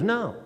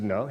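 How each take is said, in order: First: "No" as her higher-pitched confirming answer; reply "No" as a firm statement, pitched up. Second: "No?" as a checking question, tune lifting. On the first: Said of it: "She goes". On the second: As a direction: ask "No" back in surprise. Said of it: "I said". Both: Retold or imitated.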